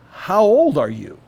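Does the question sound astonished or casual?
astonished. The question is asked with an astonished, amazed tone. The asker is amazed at how old the person is. "Or is he saying, Jacob, my gosh"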